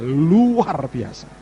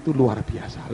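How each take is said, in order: First: "luar" drawn out long and loud, swooping up; emphatic stretch. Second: Said in the usual way. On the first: Real, not acted. Preacher marvels to the congregation, "luar" hugely stretched. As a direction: stretch the "luar" slowly, then fall on "biasa".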